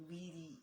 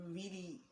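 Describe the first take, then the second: The two takes are said the same way.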